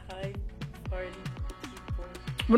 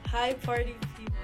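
First: It is said flatly, with little energy. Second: It is said with lots of energy.

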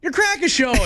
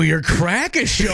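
First: It sounds congratulating and cheerful. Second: It sounds sarcastic and mocking.

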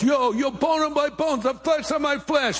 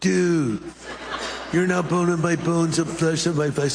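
First: It is said in an East Coast accent. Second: It is said in a Californian accent.

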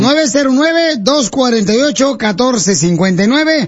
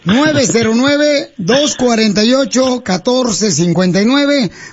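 First: The number is said at a fast pace. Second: The number is said at a slow pace.

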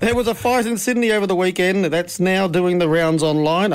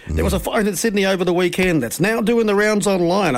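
First: It is read flatly, like a script. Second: It is read in a put-on radio voice.

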